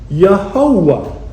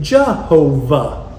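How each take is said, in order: First: The name begins with a 'y' sound. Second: The name begins with a 'j' sound. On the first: This is the form made by putting Adonai's vowels into YHWH. "they got Yehovah" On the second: This is the form that came from German pronunciation. "their Y's are pronounced as J's"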